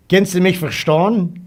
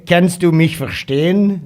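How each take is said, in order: First: "verstehen" said as dialect "verstohn", high and loud; dialect pronunciation. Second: "verstehen" in standard German, high and loud; standard German pronunciation. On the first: Asking T K if he understands dialect, "verstehen" as "verstohn". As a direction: say "verstehen" with an OH vowel, "fer-shtohn". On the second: Rephrasing for T K in standard German, "verstehen" with long EH. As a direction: say "verstehen" with a long EH, "fer-shtay-en". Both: Shown as a demonstration. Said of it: "meine Dialekte spreche".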